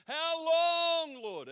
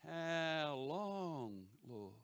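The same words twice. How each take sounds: First: High shout, long held vowel; yelled plea. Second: Drawn-out, slightly higher mock lament; imitated plea. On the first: Retold or imitated. Preacher crying out to the Lord for an answer, yelling. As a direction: yell it out, stretching the middle word. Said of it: "a yell like that". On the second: Preacher imitating Melbourne friends praying, drawn-out plea. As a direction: stretch the words out, lightly imitating a weary plea. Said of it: "they'd be going".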